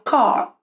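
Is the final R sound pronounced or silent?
silent. The final R is not pronounced. "geralmente esse R não é pronunciado, seria car"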